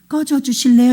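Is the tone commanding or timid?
timid. It is said as a timid polite request.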